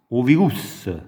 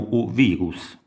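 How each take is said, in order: First: The word ends with an added soft vowel. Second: The word ends on a bare consonant sound. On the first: The speaker calls it right. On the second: The speaker calls it wrong.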